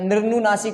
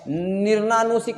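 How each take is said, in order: First: निर्नुनासिक with "nu" before "naa"; निर्नुनासिक, no A straight after nir; correct form. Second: निर्नानुसिक with "naa" after nir; निर्नानुसिक with long A before "nu"; wrong long A. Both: Shown as a demonstration. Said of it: "आ की मात्रा नहीं आएगी".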